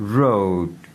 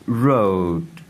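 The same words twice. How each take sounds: The two takes are said the same way.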